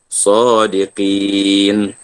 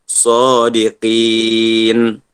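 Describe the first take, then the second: No difference in how they are said.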